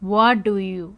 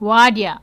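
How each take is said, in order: First: All three words are said fully and separately. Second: The words blend into one reduced form.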